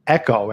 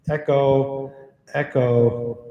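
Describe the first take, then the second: First: Said in the usual way. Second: Word ringing out with an echo tail; mic echo switched on, trailing repeats; echo effect. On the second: Shown as a demonstration. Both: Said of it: "You can see what the echo sounds like".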